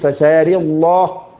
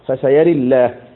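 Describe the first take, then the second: First: The L in 'Allah' is heavy and velarized. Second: The L in 'Allah' is light and thin. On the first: "لك التغليظ" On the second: "ولك الترقيق"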